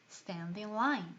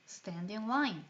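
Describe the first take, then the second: Both takes have the same delivery.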